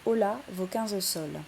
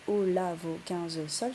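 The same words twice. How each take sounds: First: Slow, measured verse reading; lecture du vers. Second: Slow syllable-by-syllable count of Hola vaut quinze sols. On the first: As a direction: read the line like verse. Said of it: "Première réplique". (lecture lente et scandée du vers) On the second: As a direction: tap out each syllable. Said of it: "Si vous comptez". (compte des syllabes lent et détaché) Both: Shown as a demonstration.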